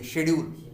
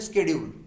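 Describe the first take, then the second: First: It is said with a British accent. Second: It is said with an American accent.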